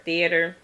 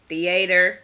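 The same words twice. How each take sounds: First: "theater" with a weak middle vowel, stressed up front; "theater" as THEE-uh-ter. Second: "theater" with a full "ay" in the middle; "theater" as thee-AY-ter. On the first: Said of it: "that's theater". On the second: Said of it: "or theater". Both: Shown as a demonstration.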